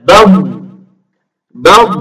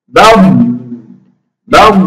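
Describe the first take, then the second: No difference in how they are said.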